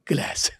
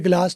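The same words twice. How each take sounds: First: It has an American flat 'a' vowel. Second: It has a British broad 'ah' vowel.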